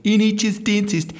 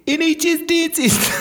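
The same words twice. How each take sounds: First: Bad Australian accent, pitched up; fake Australian accent. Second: Very high, hammed-up bad Australian accent; exaggerated Australian accent. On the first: Dentist handing out flyers, faking a bad Australian accent. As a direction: call out in a put-on Australian accent. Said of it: "I had to fake my own accent". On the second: Embarrassed dentist hawking flyers, very high fake Australian accent. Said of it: "That's a bad Australian accent".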